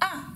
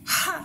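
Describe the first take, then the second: First: The word starts directly on the vowel. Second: The word starts with a breathy h sound. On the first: The speaker calls it wrong. "j'ai pas dit ah" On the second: The speaker calls it right. "J'ai bien dit ha"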